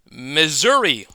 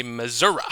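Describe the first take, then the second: First: Said in the usual way. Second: "Missouri" ending in an uh sound; "Missouri" with final ee turned to uh, softer; regional pronunciation. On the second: Shown as a demonstration. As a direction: say "Missouri" as Mizzurah. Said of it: "as some people like to say".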